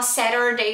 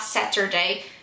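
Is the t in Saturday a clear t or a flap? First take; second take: flap; clear t. First: The t sounds like a quick tapped r. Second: The t is a clear, crisp t sound. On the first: "pronunciar o T com R por, por causa de influência americana" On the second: "eu só consigo falar Saturday"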